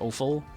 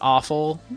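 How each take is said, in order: First: The first vowel is a rounder, fuller 'O' sound. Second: The first vowel sounds like 'aw' in awful. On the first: "with more of an O sound" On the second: "I know it's pronounced awful"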